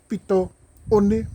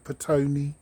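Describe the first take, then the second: First: The name is split into two parts, Pito One. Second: The name is run together as one word. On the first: The name means the end of the sands. The speaker calls it right. "lack of ability to pronounce that name. Is Pito One" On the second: This is how most people say the name. The speaker calls it wrong. "everyone calls that area Petone"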